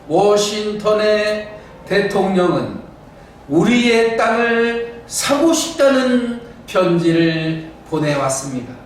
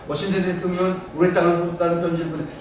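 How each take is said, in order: First: Each syllable is pressed and clearly articulated. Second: The syllables are slurred and run together. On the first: The speaker calls it right. "이거는 지금 한자 한자를 눌러서 표현해 본 거거든요" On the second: The speaker calls it wrong. "뭉뚱그려 말을 하려고 그래요"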